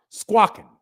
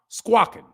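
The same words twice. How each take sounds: The two takes are said the same way.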